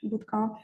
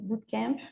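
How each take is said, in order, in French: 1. Le mot se prononce à la française. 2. Le mot se prononce à l'anglaise.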